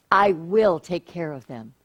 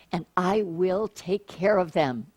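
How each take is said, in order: First: Said in the usual way. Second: Slow, soft "I will take care of them", dwelling on "care"; slow reassuring read. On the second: Acted. Preacher reading God's promise to the congregation, slow and reassuring. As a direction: lean into the promise gently.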